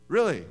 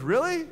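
First: A flat, falling, loud "Really?"; a dry "Really?" that drops at the end; sarcastic. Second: A sarcastic "Really?" that rises high and loud; a loud, rising "Really?" that mocks disbelief. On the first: Retold or imitated. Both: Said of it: "he got sarcastic".

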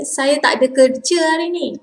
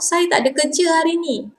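First: Said in the usual way. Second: Faster and higher, run "Saya tak ada kerja hari ni" together like everyday chat; quick casual take. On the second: Shown as a demonstration. Teacher shows the fast everyday way to say it, quick and casual.

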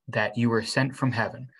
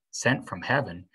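First: Said in the usual way. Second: Incredulous echo. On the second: A narrator's reading. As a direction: turn "Sent from heaven" into a doubtful question. Boy echoes praise in disbelief.

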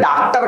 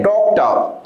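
First: डॉक्टर with an open "aa", daak-tar; unrounded "aa" in the first syllable of डॉक्टर; common mispronunciation. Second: डॉक्टर with a rounded "aw", dawk-tuh; corrected pronunciation. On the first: Retold or imitated. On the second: Shown as a demonstration. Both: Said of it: "बहुत mispronounce करते हैं".

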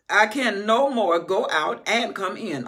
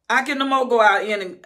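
First: Slow, loud, weighing each word; deliberate preaching emphasis; slow emphatic repeat. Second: Loud and high, breaks off; loud first take. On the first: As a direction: stress no and come in slowly. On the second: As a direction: start it loud and cut off. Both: Shown as a demonstration.

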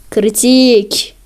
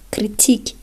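First: Loud. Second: Whisper. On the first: Loud repeat in disbelief. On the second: Whispered in disbelief. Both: Real, not acted.

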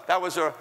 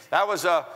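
Both takes have the same delivery.

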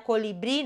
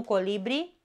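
First: "colibri" stressed at the end, co-li-BRI; stress on final syllable. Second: "colibri" stressed in the middle, co-LI-bri; stress on middle syllable. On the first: Teacher showing the correct bird name, "colibri" stressed on BRI. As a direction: land on the last I of "colibri". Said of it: "accentul cade pe final". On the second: Teacher showing the mistake to avoid, "colibri" stressed on LI. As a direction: hit the LI in "colibri". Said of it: "nu colibri". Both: Shown as a demonstration.

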